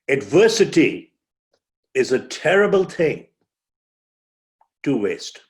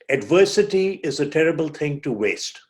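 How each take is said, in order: First: There is a pause before "to waste". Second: It is said straight through without a pause.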